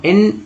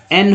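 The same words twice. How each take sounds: First: "एन" said as in; wrong pronunciation. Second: "एन" said as en; correct pronunciation. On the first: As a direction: misread "एन" with a short i. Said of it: "तो एन नहीं होगा". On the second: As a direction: say "एन" with an open e. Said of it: "एन होगा". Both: Shown as a demonstration.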